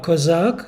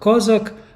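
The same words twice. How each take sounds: First: It is said with a Russian pronunciation. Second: It is said with a Ukrainian pronunciation. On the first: It refers to the Russian Cossacks. "that's a Russian pronunciation" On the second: It refers to the Ukrainian Cossacks. "Kozak are the Cossacks are the the Ukrainians"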